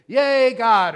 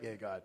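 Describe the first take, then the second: First: Loud, high, drawn-out cheer; big cheer. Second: Low, soft, half-hearted cheer; mock-emphatic imitation. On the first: Shown as a demonstration. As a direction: whoop it out for the whole congregation. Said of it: "then you're supposed to say". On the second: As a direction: imitate an underwhelming cheer, dropped low and quiet. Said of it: "Very emphatic, Joe. He's like".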